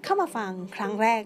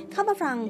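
First: Said in the usual way. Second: ฟัง mispronounced with an r, "frang"; slip on ฟัง. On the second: Real, not acted. Host welcoming first-time listeners, slipping an r into ฟัง. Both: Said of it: "ไม่ใช่เข้ามาฟังนะจ๊ะ".

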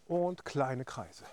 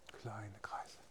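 First: Said in the usual way. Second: Whispered cue. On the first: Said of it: "cue then whispered echo". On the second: Shown as a demonstration. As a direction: breathe the words softly. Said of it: "whispered echo".

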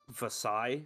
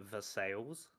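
First: "Versailles" ending on an open SIGH; French Versailles. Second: "Versailles" read as English, ending like sales; Ohio Versailles. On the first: Shown as a demonstration. Co-host naming the town as Europe says it, French-style pronunciation. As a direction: say "Versailles" as ver-SIGH, silent L and S. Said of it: "but they say it Versailles". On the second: Retold or imitated. Co-host showing how Ohio locals say it, anglicised pronunciation. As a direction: say "Versailles" as ver-SALES, sounding the L and S. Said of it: "but they say it".

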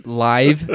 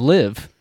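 First: "live" with a long I, rhyming with five. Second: "live" with a short I, rhyming with give. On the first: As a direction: say "live" slowly as in live show. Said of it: "those are spelled the same". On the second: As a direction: say "live" as the verb, short vowel. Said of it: "Same freaking word". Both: Shown as a demonstration.

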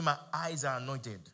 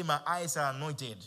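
First: Said in the usual way. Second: Slow and louder, each word planted; louder, slower declaration. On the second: Shown as a demonstration. Preacher urges the church to repeat it louder and slower. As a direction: declare it again with more weight. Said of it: "Say it again".

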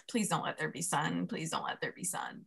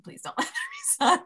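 First: Hushed, desperate little prayer; quiet pleading. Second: Pleading that cracks into a laugh-cry; laughing plea. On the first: Praying to herself on the trail for no sunshine, hushed pleading. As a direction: beg under your breath. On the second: Praying on the trail for no sunshine, laughing through the plea. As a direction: let the prayer break into laughter. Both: Retold or imitated. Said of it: "And I'm just like".

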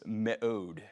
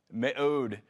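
First: Me'od said slowly as meh-ODE; Hebrew word me'od. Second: Me'od repeated crisply as meh-ODE; Hebrew word me'od. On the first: Pastor teaching the congregation a Hebrew word, slow and clear. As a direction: spell out me'od, meh-OHD, carefully. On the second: Pastor repeating the Hebrew word for the congregation, brisk. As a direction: echo Me'od once more, brisk and clear. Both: Shown as a demonstration. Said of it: "that word is".

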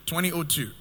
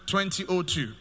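The two takes are said the same way.

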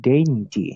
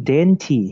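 First: Said in the usual way. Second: Dainty, stretched out slowly, each sound clear. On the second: Shown as a demonstration. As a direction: say dainty slowly like a teacher modelling it. (ออกเสียงคำว่า dainty ช้าๆ ชัดๆ) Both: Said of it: "คำว่า dainty".

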